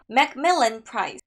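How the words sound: It is said confidently and firmly. The speaker calls it right. "자신감 있게 하는 게 포인트예요"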